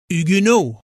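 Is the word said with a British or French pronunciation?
French. It is said the way the French say it.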